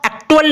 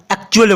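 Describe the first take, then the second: First: "एक्चुअल" mispronounced with a hard T, as ek-tual; wrong pronunciation. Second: "एक्चुअल" with a ch sound, as ek-chual; correct pronunciation. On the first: Teacher showing how not to read it, "एक्चुअल" with a hard T. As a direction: put a hard ट in "एक्चुअल" in place of च. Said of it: "हम इसका एक्चुअल ना पढ़कर". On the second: Teacher showing the perfect pronunciation, "एक्चुअल" with a ch sound. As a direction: say a clear च in "एक्चुअल", not ट. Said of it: "पढ़ेंगे क्योंकि perfect pronunciation". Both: Shown as a demonstration.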